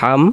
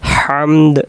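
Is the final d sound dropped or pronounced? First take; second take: dropped; pronounced. First: The word ends without the final d sound. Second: The word ends with a clear final d sound. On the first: The word no longer means praise. The speaker calls it wrong. "এখন যদি আমি পড়ি হাম, তাহলে প্রশংসা অর্থ আসবে না কখনোই" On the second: The word means praise. The speaker calls it right. "যখন আমি হা মিম এবং দাল পরিপূর্ণভাবে উচ্চারণ করব, তখন এই অর্থগুলো হবে প্রশংসা"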